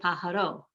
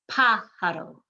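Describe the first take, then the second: First: The stress falls on a later syllable. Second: The stress falls on the first syllable. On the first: The speaker calls it wrong. "You do not want to say pájaro" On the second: The speaker calls it right. "You're emphasizing that first syllable"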